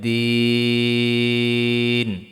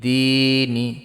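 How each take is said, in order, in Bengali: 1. থামার আগে স্বরধ্বনিটি লম্বা টানা হয়। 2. স্বরধ্বনিটি ছোট, আর শব্দটি চলতে থাকে।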